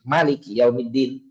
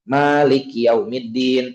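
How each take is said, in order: First: The vowel after the m is kept short. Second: The vowel after the m is drawn out long. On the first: "ada kiroat yang mimnya dibaca pendek" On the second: "mimnya dipanjangin"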